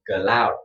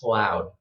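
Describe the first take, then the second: First: An extra vowel separates the C and L. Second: The C and L join with no vowel. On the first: The speaker calls it wrong. "This is a, a Vietnamese uh, accent" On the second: The speaker calls it right. "just like this"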